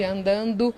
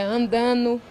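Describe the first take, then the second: First: It is said fully, as it is written. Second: It is said in the casual spoken form. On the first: This is the form used in writing. "ao invés de andando" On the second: This is how people here usually talk. "andando ao invés de"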